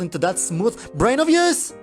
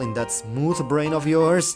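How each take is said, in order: First: It is screamed with heavy sarcasm. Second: It is said with mild sarcasm. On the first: "with an even more sarcastic tone" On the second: "it goes like this"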